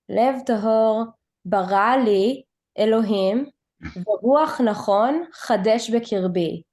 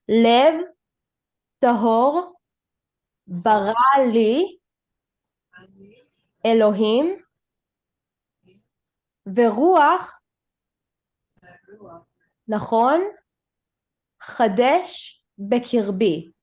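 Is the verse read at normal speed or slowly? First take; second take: normal speed; slowly. First: It is read at normal speed. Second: It is read very slowly.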